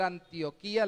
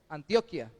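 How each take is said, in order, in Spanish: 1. El nombre se dice a la manera habitual no colombiana. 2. El nombre se dice a la manera regional colombiana. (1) "En vez de leer Antioquía" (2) "leemos Antioquia, por como lo pronunciamos en nuestro país"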